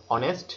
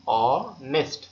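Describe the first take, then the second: First: Said in the usual way. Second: অনেস্ট very slow and loud, broken after the first vowel; split into syllables. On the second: Shown as a demonstration. Teacher showing students two syllables, অনেস্ট slowly pulled apart. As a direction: stretch the opening vowel of অনেস্ট, pause, then the rest. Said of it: "অ থেকে নয়ে চলে গেছে".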